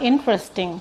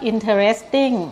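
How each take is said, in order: First: It is said with a standard English pronunciation. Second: It is said with a Thai-style pronunciation. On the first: The speaker calls it right. "อันนี้คือการออกเสียงที่ถูก" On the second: The speaker calls it wrong. "คนไทยส่วนใหญ่ก็จะออกว่า"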